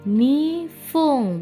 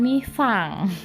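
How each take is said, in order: First: The last syllable has an 'u' vowel. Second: The last syllable has an 'a' vowel. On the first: The speaker calls it right. "Dua menit nifung" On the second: The speaker calls it wrong. "bukan nifang"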